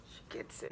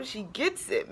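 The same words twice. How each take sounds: First: Breathed, almost soundless; whisper. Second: Said in the usual way. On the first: Real, not acted. Woman repeating what the speaker said, whispered. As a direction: whisper it to yourself, moved.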